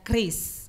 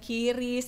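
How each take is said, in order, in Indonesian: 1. k dan r langsung bersambung. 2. Terdengar bunyi vokal di antara k dan r. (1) "yang benar itu adalah kris" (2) "sebutannya itu bukan kiris"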